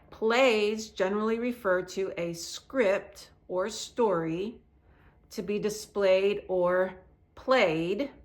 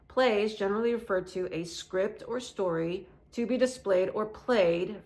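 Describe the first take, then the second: First: It is read at a normal pace. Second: It is read at a faster pace.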